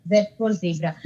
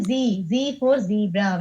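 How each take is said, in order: First: Z as "zed", zebra with a long ee; British zed. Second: Long ee in both Z and zebra; American zee. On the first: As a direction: say Z as "zed", then "zebra" as "zee-bra". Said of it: "This is what most of us would have learned". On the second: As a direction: say Z as "zee", then "zebra" as "zee-bra". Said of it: "We can tell like that". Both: Shown as a demonstration.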